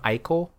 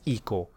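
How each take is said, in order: First: The name is said with an American pronunciation. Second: The name is said with a non-American pronunciation. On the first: "Ico is a very American way of saying things" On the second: "I would say Eco"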